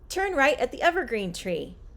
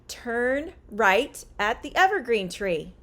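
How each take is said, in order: First: The sentence is spoken at a faster pace. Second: The sentence is spoken at a normal pace.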